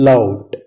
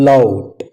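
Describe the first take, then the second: No difference in how they are said.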